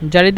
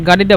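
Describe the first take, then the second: First: The word starts with a soft J sound. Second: The word starts with a hard G sound. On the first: This is the general form of the word. "জারিদা হলো news paper" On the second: This is how Egyptians say the word. "জারিদাকে মিশ্রটা গাড়িদা বলে"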